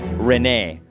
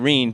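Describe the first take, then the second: First: The name is said like 'reh-neh'. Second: The name is said like 'reen'. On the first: This is the Japanese reading. "In Japanese, it's Rene" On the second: This is the usual English reading. "I also pronounced it Reen"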